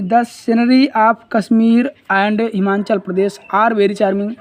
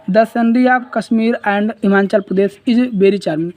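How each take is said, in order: First: Reads the wrong sentence slowly, word by word; slow classroom reading of the wrong option; slow dictation read. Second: Reads the correct sentence slowly, word by word; slow classroom reading of the right option; slow dictation read. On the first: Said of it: "are वाला गलत है". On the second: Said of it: "ये is वाला सही है". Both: Shown as a demonstration.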